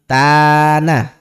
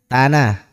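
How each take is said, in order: First: One vowel is drawn out long. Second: All vowels are kept short. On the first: "Ini A-nya dua, berarti" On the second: "A-nya satu ya. Tidak panjang berarti ya"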